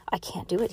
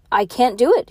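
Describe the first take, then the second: First: Hushed, softer admission; quiet, private confession; soft near-whisper. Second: Higher, louder public declaration; raised voice, lifting in pitch; loud announcement. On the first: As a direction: say it softly, just short of a whisper. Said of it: "he whispered". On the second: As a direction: announce it to a whole crowd. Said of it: "he announced". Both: A narrator's reading.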